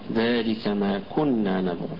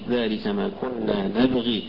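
First: The last word ends on a bare consonant. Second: The last word ends with a long 'ee' vowel. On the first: "قرأت بالسكون نبغ" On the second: "وقرأت بالإشباع نبغي"

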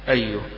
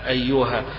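First: The word ends on a bare h consonant. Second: The word ends on a long a vowel. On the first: This is the majority pausal reading. "فإذا وقف عليها الجميع يبقى حيسكنه" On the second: This is a minority pausal reading. "بالوقف عليها بالألف"

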